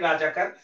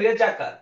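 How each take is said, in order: First: The first vowel is an 'a' sound. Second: The first vowel is an 'e' sound. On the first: This is the common everyday form. The speaker calls it wrong. "আমরা রাজাকার বলি, এটা গড়ে হয়ে গেছে" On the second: This is the original form from Arabic and Persian. The speaker calls it right. "উচ্চারণটা হবে রেজাকার"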